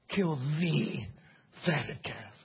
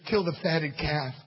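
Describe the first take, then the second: First: The word 'the' is stressed. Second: The word 'the' is unstressed. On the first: It refers to one specific calf everyone knew. "And one day I read it like this" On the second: It refers to any fattened calf. "And I'd read it for years"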